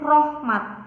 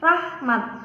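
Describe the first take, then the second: First: The first vowel sounds like 'o'. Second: The first vowel sounds like 'a'. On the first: The speaker calls it wrong. "sedangkan yang salah itu rohmat" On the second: The speaker calls it right. "Lafal yang benar itu rahmat"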